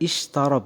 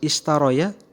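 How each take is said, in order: First: The word ends with a long "ra" sound. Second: The word ends with an extra "ya" syllable. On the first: The speaker calls it right. "Maka cara membacanya adalah ishtara" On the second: The speaker calls it wrong. "Yang harusnya istaroya, tetapi ingat di situ bukan ya ya"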